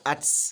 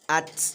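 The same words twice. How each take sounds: First: The final t is followed by a hissing s-sound. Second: The final t is released without any hissing sound. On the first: The speaker calls it wrong. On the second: The speaker calls it right. "the correct pronunciation should, should be"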